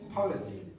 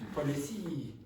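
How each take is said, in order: First: The stress is not on the last syllable. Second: The stress is on the last syllable. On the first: The speaker calls it right. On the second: The speaker calls it wrong.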